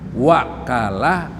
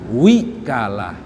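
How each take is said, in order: First: The first vowel is an 'a' sound. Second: The first vowel is an 'i' sound. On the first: "boleh wawunya fathah" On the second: "boleh wawunya kasroh"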